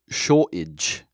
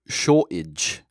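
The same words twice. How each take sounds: First: The T is replaced by a glottal stop. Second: The T is replaced by a glottal stop.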